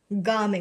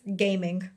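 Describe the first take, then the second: First: The first vowel is an open 'ah' sound. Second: It is said like the English word gaming. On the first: The speaker calls it right. "his name is Gaming" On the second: The speaker calls it wrong. "the first thing I read was gaming"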